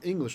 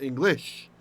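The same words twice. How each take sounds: First: The stress is on the first syllable. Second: The stress is on the last syllable. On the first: The speaker calls it right. "In English, we like it at the beginning" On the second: The speaker calls it wrong. "not English"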